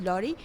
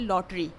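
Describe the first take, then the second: First: The t sound in the middle is silent. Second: The t sound in the middle is pronounced. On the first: "correct word is लॉरी" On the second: "जिसको आप simply बोलते हैं लॉटरी"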